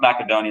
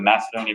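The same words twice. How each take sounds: First: It is said in a less common way. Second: It is said in the common English way. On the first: This is likely the correct original pronunciation. The speaker calls it right. "it's probably pronounced Macedonia" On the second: This is the habitual everyday pronunciation. The speaker calls it wrong. "everyone always says Macedonia"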